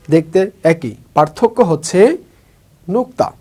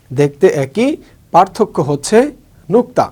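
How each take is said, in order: Both takes have the same delivery.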